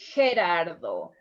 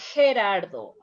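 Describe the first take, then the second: First: The name is said with a Spanish pronunciation. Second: The same.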